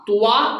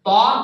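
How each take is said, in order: First: A w-like glide follows the t sound. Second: No glide follows the t sound. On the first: The speaker calls it wrong. "तुआ गलत है" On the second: The speaker calls it right. "तो सही है"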